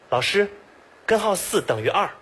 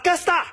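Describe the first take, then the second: First: Every syllable is said clearly and separately. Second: Most syllables are swallowed into two slurred syllables. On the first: "他说的是" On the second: "纯吃啊"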